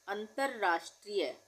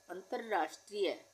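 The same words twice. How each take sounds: The two takes are said the same way.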